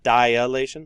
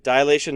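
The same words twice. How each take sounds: First: The word begins with dia, as in diagram. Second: The word begins with a short di sound. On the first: The speaker calls it wrong. "not dilation, like diagram" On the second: The speaker calls it right. "it is dilation"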